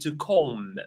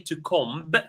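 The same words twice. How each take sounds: First: The final B sound is silent. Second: The final B sound is pronounced. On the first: The speaker calls it right. "We don't pronounce the B. The B is silent" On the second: The speaker calls it wrong. "We don't say to comb"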